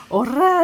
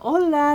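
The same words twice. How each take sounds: First: Loud, high "オラー" with a trilled R; "オラー" belted out like a rough Tokyo tough; rolled-R tough-guy shout. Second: "オラ" said with an L, not rolled; "オラ" with a clean L sound; L pronunciation. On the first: Retold or imitated. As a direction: bellow "オラー" with a hard rolled tongue. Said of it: "なんかベラン名調の 巻き舌でね". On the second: Shown as a demonstration. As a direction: say "オラ" as a Spanish hello, light L. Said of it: "エルの発音なんですよ".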